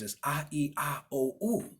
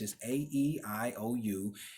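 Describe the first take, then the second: First: The vowels are named with Spanish letter sounds. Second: The vowels are named with English letter sounds. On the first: "In Spanish, or in the, in, in, in the Romance languages" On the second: "in English"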